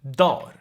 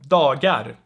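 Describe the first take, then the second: First: The G sound is dropped from the middle. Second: The G sound is pronounced in the middle. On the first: The speaker calls it right. "you will most likely hear dar" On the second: The speaker calls it wrong. "because no one says that"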